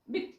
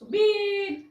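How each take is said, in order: First: The vowel is said short. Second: The vowel is drawn out long. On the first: The speaker calls it right. "Short उच्चार आला" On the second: The speaker calls it wrong. "असा लांब उच्चार नाही"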